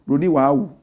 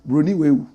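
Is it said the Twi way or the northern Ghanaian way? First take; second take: northern; Twi. First: It is said the northern Ghanaian way. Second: It is said the Twi way.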